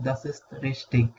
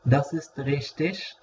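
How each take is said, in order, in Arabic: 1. richtig تنتهي بصوت 'ig' قوي. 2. richtig تنتهي بصوت 'ish' خفيف. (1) "وبتتنطق إج" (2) "بتتنطق إش"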